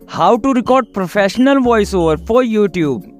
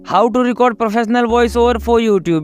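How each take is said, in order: First: It is read with pauses, varied pitch, and stressed keywords. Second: It is read in one even, flat tone. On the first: The speaker calls it right. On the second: The speaker calls it wrong.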